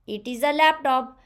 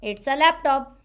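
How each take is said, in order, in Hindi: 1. इसे पूरा बोला जाता है, दो अलग शब्द। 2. इसे एक छोटे अक्षर में संक्षिप्त किया जाता है।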